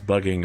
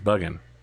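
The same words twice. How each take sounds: First: The word ends with a full 'ing' sound. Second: The word ends with a short 'in' sound. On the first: "pronounce bugging as" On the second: "you're removing the G"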